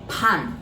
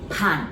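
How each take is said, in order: No difference in how they are said.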